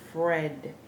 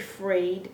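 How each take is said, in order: First: The vowel is a short, pure 'eh' sound. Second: The vowel is a gliding 'ay' sound. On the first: The speaker calls it right. "we say Fred" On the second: The speaker calls it wrong. "We don't say Fred"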